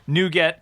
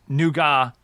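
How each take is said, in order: First: It is said with an American pronunciation. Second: It is said with a British pronunciation. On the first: "U S pronunciation" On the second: "for the U K"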